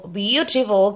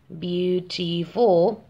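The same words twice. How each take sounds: First: Said in the usual way. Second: "beautiful" very slowly, split into three syllables. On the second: Shown as a demonstration. Teacher counting out three syllables for learners, "beautiful" said syllable by syllable. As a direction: draw out "beautiful" one syllable at a time. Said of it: "Tiene tres".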